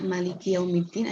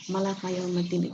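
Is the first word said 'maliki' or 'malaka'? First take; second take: maliki; malaka. First: The first word ends with the vowels 'i-i'. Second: The first word ends with the vowels 'a-a'. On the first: The speaker calls it right. "Kalau maliki sama maliki itu boleh" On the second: The speaker calls it wrong. "malaka itu nggak boleh"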